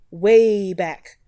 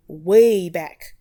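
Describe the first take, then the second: No difference in how they are said.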